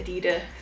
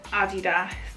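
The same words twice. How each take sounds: First: It is said the American English way. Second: It is said the British English way. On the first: "Americans say Adidas" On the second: "English people say Adidas"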